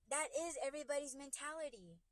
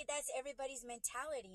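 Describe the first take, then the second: First: "is" lifted higher for emphasis; stress on IS. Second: Said in the usual way. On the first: Real, not acted. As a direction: insist on the word "is". Restates it, stressing "is.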